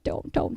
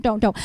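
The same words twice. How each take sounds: First: Breathy whisper of don't, don't. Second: Said in the usual way. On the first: Shown as a demonstration. Teacher whispering a warning to the class. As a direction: hush it like a secret warning.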